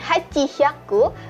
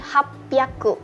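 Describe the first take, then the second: First: The middle has a full 'chi' and an h sound. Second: The middle has a doubled p sound. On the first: The speaker calls it wrong. "Jadi bukan hachihyaku" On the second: The speaker calls it right. "tetapi hapyaku"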